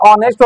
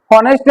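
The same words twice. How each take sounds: First: ऑनेस्ट beginning on a bare vowel; right reading ऑनेस्ट, no h at all; h silent. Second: हॉनेस्ट with a clear h first; wrong reading हॉनेस्ट, h pronounced; h sounded. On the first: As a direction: say ऑनेस्ट as "o-nest", dropping the h. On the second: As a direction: say हॉनेस्ट as "ho-nest", h kept in. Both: Shown as a demonstration. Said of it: "हॉनेस्ट नहीं ऑनेस्ट होता है".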